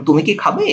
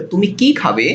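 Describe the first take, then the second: First: তুমি কি খাবে said as a yes-or-no question, voice rising on খাবে; yes-no question tune. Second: তুমি কি খাবে with weight on কি and the voice falling at খাবে; open question tune. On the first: Teacher showing students a yes-no question, rising on খাবে. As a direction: ask তুমি কি খাবে with an upward lift at the end, expecting a yes or no. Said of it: "তাহলে হবে কয় হ্রস্ব ইকার". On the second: Teacher showing students an open what-question, falling tune. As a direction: ask তুমি কি খাবে as "what will you eat", falling at the end. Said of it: "তখন হবে কয় দীর্ঘ ইকার".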